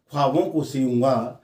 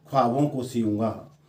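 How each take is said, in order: Both takes have the same delivery.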